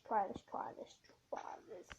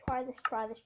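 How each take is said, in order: First: Whisper. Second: Said in the usual way. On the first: Real, not acted. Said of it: "drops to whisper". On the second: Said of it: "repeating while attempting".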